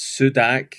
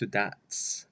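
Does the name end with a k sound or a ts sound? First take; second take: k; ts. First: The name ends with a k sound. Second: The name ends with a ts sound. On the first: The speaker calls it wrong. "when you look at it" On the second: The speaker calls it right. "with the Croatian pronunciation"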